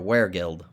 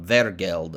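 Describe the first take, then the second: First: The word is said in a Midwestern American way. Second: The word is said in a non-English way.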